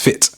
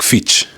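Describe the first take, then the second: First: The word ends with a plain t. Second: The word ends with a ch sound. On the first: "what they're trying to say is fit" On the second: "when you hear a word like Fitch"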